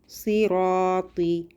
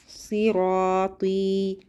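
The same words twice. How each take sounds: No difference in how they are said.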